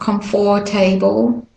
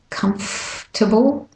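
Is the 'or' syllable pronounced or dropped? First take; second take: pronounced; dropped. First: The middle 'or' syllable is fully pronounced. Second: The middle 'or' syllable is dropped. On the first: The speaker calls it wrong. "so it's not comfortable. The OR gets dropped" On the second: The speaker calls it right. "you go from the F to the T"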